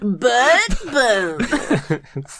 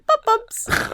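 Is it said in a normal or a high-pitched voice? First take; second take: normal; high-pitched. First: It is said in a normal voice. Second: It is said in a high-pitched voice.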